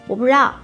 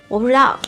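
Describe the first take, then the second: Both takes have the same delivery.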